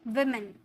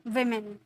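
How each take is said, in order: Both takes have the same delivery.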